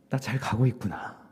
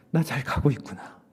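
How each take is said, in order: Both takes have the same delivery.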